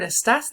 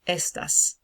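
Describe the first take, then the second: First: The stress is on the second syllable. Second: The stress is on the first syllable. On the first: It is a form of the verb meaning 'you are'. "This is not the word estás" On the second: It is the word meaning 'these'. "So the stress goes on the first syllable of that"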